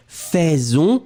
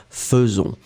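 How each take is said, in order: First: "Faisons" read as written, first syllable "fè"; spelling pronunciation. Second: "faisons" said fe-zon, with a schwa first; correct French pronunciation. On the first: Teacher contrasting the written AI, "Faisons" said as fè-zon. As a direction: say "Faisons" with an open è for the AI. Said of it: "will be pronounced faisons". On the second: Teacher correcting the spelling trap, "faisons" pronounced fe-zon. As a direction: say "faisons" with "euh" in the first syllable. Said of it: "will be pronounced". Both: Shown as a demonstration.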